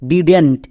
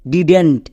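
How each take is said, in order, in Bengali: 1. এটি একটি সংকুচিত শব্দ হিসেবে উচ্চারিত হয়। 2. এটি একটি সংকুচিত শব্দ হিসেবে উচ্চারিত হয়।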